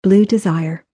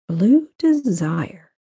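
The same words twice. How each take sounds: First: Said in the usual way. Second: BLUE DESIRE drawn out at half speed; slow, savoring repeat. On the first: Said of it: "said its name before she thought to stop herself". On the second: A narrator's reading. Benton repeats the flower name Grace let slip, slow and savoring. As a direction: linger slowly on both words, Blue Desire.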